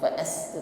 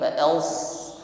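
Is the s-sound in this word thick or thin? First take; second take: thin; thick. First: The s-sound is thin, with spread lips. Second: The s-sound is thick, with a raised tongue. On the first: The speaker calls it wrong. "bukan senyum sebagaimana mengucapkan sin, bukan fa'as" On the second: The speaker calls it right.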